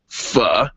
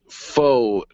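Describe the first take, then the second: First: The word does not sound like 'faux'. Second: The word sounds like 'faux', rhyming with 'go'. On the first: The speaker calls it right. "but it is pronounced pho" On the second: The speaker calls it wrong. "You might read it as faux ninety-five"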